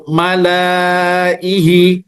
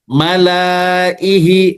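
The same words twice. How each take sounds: First: The vowel after the l is drawn out long. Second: The vowel after the l is drawn out long.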